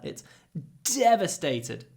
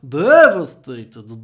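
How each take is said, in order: First: A short catch and aspiration come before the d. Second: The first d is plain and fully voiced. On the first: The speaker calls it right. "We even add some aspiration. D- d- d- devastated" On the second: The speaker calls it wrong. "So it's not devastated, duh"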